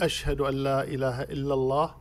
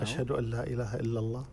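First: It is said in a raised, loud voice. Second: It is said in a low, quiet voice.

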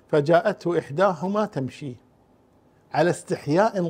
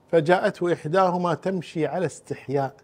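First: The pause comes after the word tamshi. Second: The pause comes after the word istihya. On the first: The modesty is in the way she spoke. "والوقف الثاني ... فيكون الاستحياء في قولها" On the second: The modesty is in the way she walked. "إما أن تقرأ فجاءته إحداهما تمشي على استحياء فيكون الحياء في مشيتها"

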